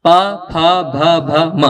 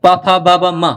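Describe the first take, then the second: First: "पा फा भा भा म" drawn out, one syllable at a time; stretched lip sounds in "पा फा भा भा म"; slow labial series. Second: "पा फा बा बा म" as a quick run of lip sounds; labial series. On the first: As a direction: recite "पा फा भा भा म" very slowly from the lips. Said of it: "उसका उच्चारण होठ से होता है". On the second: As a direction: recite "पा फा बा बा म" using the lips for each. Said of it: "म का उच्चारण होठ से होता है". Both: Shown as a demonstration.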